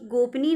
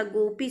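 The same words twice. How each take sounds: First: गोपनी with an n before the ee; wrong form गोपनी. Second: गोपी as go-pee; correct form गोपी. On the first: Teacher rejects the feminine form, gop-nee for गोपनी. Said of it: "नहीं होता". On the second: Teacher gives the pure form, go-pee for गोपी. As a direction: say गोपी without an n. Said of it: "शुद्ध है". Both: Shown as a demonstration.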